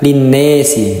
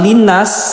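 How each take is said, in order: First: The long vowel leans toward an 'e' sound. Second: The long vowel is a plain open 'a'. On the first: "dibaca dengan imalah" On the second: "dibaca fathah"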